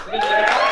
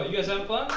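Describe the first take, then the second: First: High, loud hype shout to the crowd. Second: Said in the usual way. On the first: Real, not acted. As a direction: pump up the room, much higher and louder. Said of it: "repeats louder". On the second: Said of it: "repeats to crowd".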